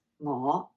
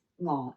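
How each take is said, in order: First: "我" low, then lifted upward; rising glide on "我". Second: "我" low and level; low, even "我"; low flat tone. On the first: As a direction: let "我" climb from a low start. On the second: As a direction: hold "我" low without rising. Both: Shown as a demonstration. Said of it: "but different tones".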